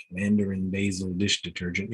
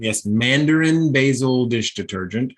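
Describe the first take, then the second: First: Said in the usual way. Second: "Mandarin basil dish detergent" louder, stressed on Mandarin; incredulous emphasis. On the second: A narrator's reading. Husband confirming his wife's fussy soap order, emphatic. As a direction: lean hard on "Mandarin", confirming the absurd product name. Repeats product name with emphasis.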